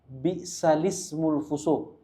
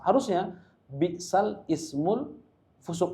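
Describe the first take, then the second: First: The words link smoothly with no glottal stop. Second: A glottal stop is heard before the second word. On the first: This is how the recited text reads. "hanya di situ aja" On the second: This is how grammar alone would expect it.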